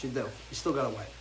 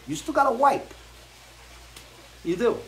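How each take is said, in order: First: Low and softer, resigned; soft deadpan repeat; quiet resigned repeat. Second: High emphatic punchline; emphatic warning. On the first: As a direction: drop it down like a sad afterthought. Repeats the bad news. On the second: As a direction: hit it high like a dramatic reveal. Breaking the news about bidets. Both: Real, not acted.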